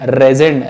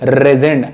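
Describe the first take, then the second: First: The word begins directly with the r sound. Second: The word begins directly with the r sound.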